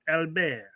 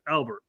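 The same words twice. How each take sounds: First: The name is said the French way. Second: The name is said the English way.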